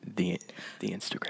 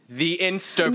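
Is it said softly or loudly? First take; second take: softly; loudly. First: It is said softly and hesitantly. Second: It is said loudly and with force.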